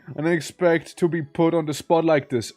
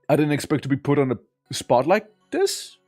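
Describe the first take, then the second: First: The voice falls at the end. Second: The voice rises at the end.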